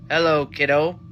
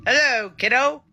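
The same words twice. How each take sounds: First: A half-hearted evil greeting, a little louder; menacing villain greeting, lightly played; mock menacing. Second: Higher and a little louder, trying for cheerful; a forced cheerful greeting that still sounds menacing; attempted cheerful. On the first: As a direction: try to make it sound sinister. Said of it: "saying it in such a menacing, evil way". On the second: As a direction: sing it brightly but still a touch sinister. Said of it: "nice, calm, cheerful way". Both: Shown as a demonstration.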